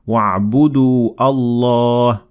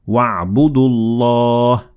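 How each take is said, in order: First: A glottal stop separates Allah from the previous word. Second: The words run together without a glottal stop. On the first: The speaker calls it wrong. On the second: The speaker calls it right. "which is not pronounced if you keep on reading"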